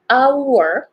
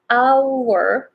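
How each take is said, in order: No difference in how they are said.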